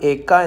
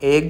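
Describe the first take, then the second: First: The k sound is held and doubled. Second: The k sound is short and single. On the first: The speaker calls it right. "ഏക്ക എന്നാണ്" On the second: The speaker calls it wrong. "ഏക എന്നല്ല"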